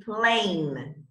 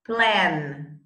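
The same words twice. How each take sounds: First: Plane with a long gliding ei vowel; long A demo. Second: Plan with a short open a as in cat; short a demo. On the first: Teacher models the long A in a minimal pair, drawn out. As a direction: draw out the A in Plane as ei. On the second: Teacher contrasts the short a in a minimal pair, clipped. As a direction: keep the a in Plan short and flat. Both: Shown as a demonstration. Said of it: "Which one?".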